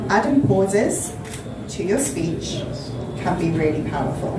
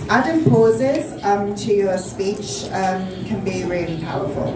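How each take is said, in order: First: Smooth and steady, with no filler sounds. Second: Hesitant, with filler sounds breaking up the phrases. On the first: The speaker believes in the words they are saying. The speaker calls it right. "In the second one, I sound confident" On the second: The speaker is unsure of what they are saying. The speaker calls it wrong. "in the first one, I sound nervous"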